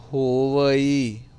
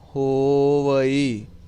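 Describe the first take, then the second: First: The word ends in a 'va-ee' sound. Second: The same.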